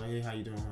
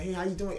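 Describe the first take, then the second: First: The greeting sounds miserable and downcast. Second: The greeting sounds happy and upbeat.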